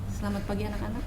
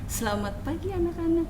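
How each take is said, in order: First: The greeting is said with flat intonation. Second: The greeting is said with lively intonation. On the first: "intonasinya masih datar" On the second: "beda lagi uh, dengan intonasi yang lain"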